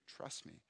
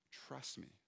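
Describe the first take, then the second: First: Whispered trust me. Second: Very soft voiced trust me; barely above a murmur, gentle and sure; hushed reassurance. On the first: Retold or imitated. God's still small voice to the anxious pastor, whispered. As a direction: breathe it out as a whisper, gentle. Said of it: "a calm, still voice". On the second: God's voice calming the anxious pastor, very soft. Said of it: "what God was speaking to me".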